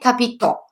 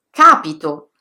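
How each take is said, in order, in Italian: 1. L'accento è sull'ultima sillaba. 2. L'accento è sulla prima sillaba. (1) "L'accento può cadere sull'ultima sillaba" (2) "sulla terzultima"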